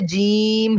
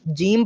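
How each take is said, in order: First: The vowel is drawn out long. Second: The vowel is kept short. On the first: "असल में तो इसे जीम ही पढ़ा जाता है" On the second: "ज़्यादा खींचने की बजाय जीम पढ़ा जाए"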